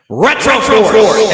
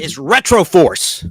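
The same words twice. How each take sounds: First: Retroforce, slow and loud, drawn out; dramatic name announcement. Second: Said in the usual way. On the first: Acted. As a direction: boom out Retroforce like a title.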